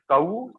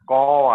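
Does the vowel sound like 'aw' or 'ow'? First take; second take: ow; aw. First: The vowel is a gliding 'ow' sound. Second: The vowel is a flat 'aw' sound. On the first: "we can pronounce it like ow also" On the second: "caw in only in in a in a verbal kind of thing"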